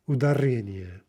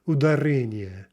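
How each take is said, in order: The two takes are said the same way.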